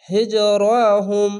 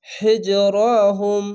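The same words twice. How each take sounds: First: হিজরাহুম slow with a bounce on the stopped জ; bounced stop. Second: হিজরাহুম slow with the final ম clearly sounded; careful repeat. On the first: Teacher showing the bounce, slow recitation. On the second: Teacher repeating for students, slow careful recitation. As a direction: recite হিজরাহুম slowly, sounding every letter. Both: Shown as a demonstration. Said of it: "ঝোঁক মেরে পড়বেন".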